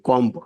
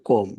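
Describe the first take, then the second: First: The word ends with an audible b sound. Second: The word ends on m with no b sound. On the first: The speaker calls it wrong. "কম্ব না" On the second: The speaker calls it right. "বি হচ্ছে নীরব।"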